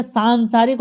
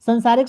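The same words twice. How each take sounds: First: "सांसारिक" with long first aa, saan-saa-rik; corrected form saansaarik. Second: "संसारिक" with short first a, san-saa-rik; wrong form sansaarik. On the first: Teacher correcting students, "सांसारिक" as saan-saa-rik. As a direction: stretch the opening of "सांसारिक": saan. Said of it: "बड़ा मात्रा लगेगा". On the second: Teacher showing the wrong word, "संसारिक" as san-saa-rik. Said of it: "शब्द गलत है". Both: Shown as a demonstration.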